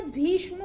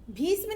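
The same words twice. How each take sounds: First: Said in the usual way. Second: भीष्म as bhisma, with plain s; wrong pronunciation. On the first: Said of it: "तो भीष्म होता है". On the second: Shown as a demonstration. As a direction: say भीष्म with s instead of sh. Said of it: "भीष्म नहीं".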